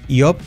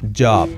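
First: The word starts with a y sound. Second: The word starts with a voiced ch-like sound. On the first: The speaker calls it wrong. "no es iob" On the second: The speaker calls it right. "Como una che, che-che-che, pero sonora"

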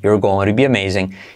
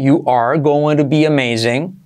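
First: Only you are is contracted to you're. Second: Every word is said in full, uncontracted. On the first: "Pero también puedes contraer" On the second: "Puedes hacerlo así"

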